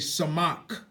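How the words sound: The second vowel is an 'ah' sound. This is how our own group says it. "We say samak"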